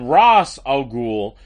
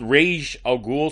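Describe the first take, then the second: First: The first word does not sound like 'rage'. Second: The first word sounds like 'rage'. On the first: "Yet in the movies, he's called Ra's al Ghul" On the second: "I prefer Ra's just because it sounds like rage"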